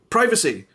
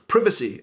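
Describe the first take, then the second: First: It is said with an American pronunciation. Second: It is said with a British pronunciation. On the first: "That is the way you say it in America, and that is also the way I would say it" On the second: "a lot of people in British English definitely would say the word privacy instead"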